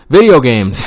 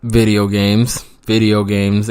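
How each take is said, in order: First: Louder emphatic repeat; a loud, laughing payoff; louder punchline. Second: Slow, deliberate punchline; savoring the punchline reveal; drawn-out reveal. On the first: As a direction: punch it the third time. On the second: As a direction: let the answer land slowly. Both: Shown as a demonstration. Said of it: "you ask?".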